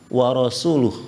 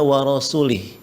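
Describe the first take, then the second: First: The last word ends with a u vowel. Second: The last word ends with an i vowel. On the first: God and His Messenger both disown the idolaters. The speaker calls it right. "Padahal yang benar wa rasuluh" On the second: God disowns the idolaters and also His Messenger. The speaker calls it wrong. "Dia membacanya wa rasulih"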